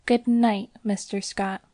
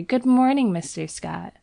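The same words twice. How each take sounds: First: A candid, open farewell; frank goodnight. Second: Bright, much higher cheerful hello; a happy model greeting the painter; merry greeting. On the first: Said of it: "with a frank". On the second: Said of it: "with a merry". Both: Acted.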